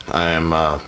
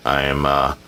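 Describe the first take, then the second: No difference in how they are said.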